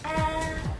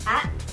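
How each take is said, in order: First: The syllable is said calmly and smoothly. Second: The syllable is said fairly quickly. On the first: "Ang first tone, dapat malumanay" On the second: "Sa second tone, medyo mabilis"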